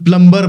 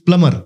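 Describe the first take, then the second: First: The b sound is pronounced in the middle. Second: The b sound is left silent in the middle. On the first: The speaker calls it wrong. "आपण प्लंबर म्हणतो" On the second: The speaker calls it right. "The right pronunciation is प्लमर"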